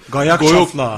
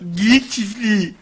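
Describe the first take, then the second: First: The vowels are opened to a fat a sound. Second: The phrase uses its normal mixed vowels. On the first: "daha şişman bir ağız söyle" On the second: "Geyik çiftliği oluyor"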